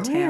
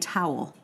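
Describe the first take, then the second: First: The word has one syllable, like 'tail'. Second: The word has two syllables, like 'towel'. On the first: "if you grow up in Philadelphia, as I did, the word for T-O-W-E-L is pronounced tail" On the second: "Instead of saying"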